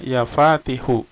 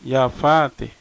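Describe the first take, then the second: First: The name ends with an added final u vowel. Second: The name ends on the consonant, no final vowel.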